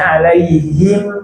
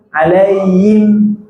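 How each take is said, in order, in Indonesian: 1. Konsonannya adalah bunyi h berhembus. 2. Konsonannya adalah hamzah. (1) "harusnya alaihim" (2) "malah alaihim, yim, yim, jadi hamzah"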